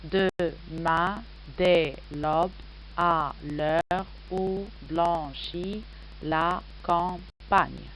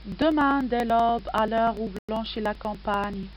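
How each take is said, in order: First: "Demain, dès l'aube" onward slowly split into separate syllables, each held. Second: Said in the usual way. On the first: Shown as a demonstration. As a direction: count out "à l'heure où blanchit la campagne" syllable by syllable. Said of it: "je l'ai réparti en douze syllabes". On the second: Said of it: "suivez avec moi pour contempler le poème".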